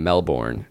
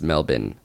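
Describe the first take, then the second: First: "Melbourne" with a full BORN second syllable; wrong American pronunciation. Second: "Melbourne" as MEL-bin, r dropped; local pronunciation. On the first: Host quoting listeners' complaint, "Melbourne" said as mel-born. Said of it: "we're saying Melbourne". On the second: Host giving the correction, "Melbourne" said as MEL-bin. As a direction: say "Melbourne" with a short, weak second syllable, MEL-bn. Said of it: "still getting tweets that we're saying". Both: Shown as a demonstration.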